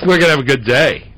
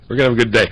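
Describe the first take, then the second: First: Excited. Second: Said in the usual way. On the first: Shown as a demonstration.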